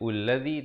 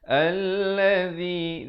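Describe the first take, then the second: First: The word begins with a u vowel. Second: The word begins with an a vowel. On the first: The speaker calls it wrong. "jangan baca ullazi" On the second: The speaker calls it right. "tapi baca allazi"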